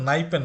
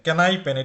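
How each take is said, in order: First: The word starts with an n sound. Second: The word starts with a k sound. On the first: The speaker calls it wrong. "উচ্চারণ কিন্তু নাইপেন না" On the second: The speaker calls it right. "কে এর উচ্চারণ করতে হবে"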